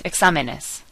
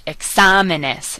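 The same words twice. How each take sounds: First: Said in the usual way. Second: Exámenes slow, stretched stress on SA; over-enunciated stress. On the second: Shown as a demonstration. Teacher enunciating so learners hear it, slow stressed SA in Exámenes. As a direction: enunciate Exámenes, leaning on its second syllable. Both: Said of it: "I'm enunciating a little extra".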